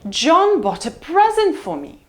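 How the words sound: The pitch falls from high to low on present. "Let's try high fall"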